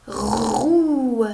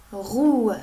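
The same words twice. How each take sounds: First: ROUE loud, long rasped r into held ou; sounding out. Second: Said in the usual way. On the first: Shown as a demonstration. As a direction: draw out "roue" for a beginning reader. (« roue » déchiffré fort, chaque son étiré) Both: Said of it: "Regarde bien la première lettre".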